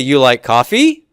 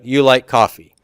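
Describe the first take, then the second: First: The voice rises at the end. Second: The voice falls at the end. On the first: It is a question. "I go up with that tone" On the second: It is a statement. "I'm making a statement"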